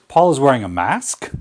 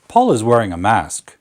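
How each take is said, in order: First: The pitch rises at the end. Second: The pitch falls at the end. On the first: It becomes a surprised question. "But if we lift it" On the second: It is a statement. "That's downward inflection"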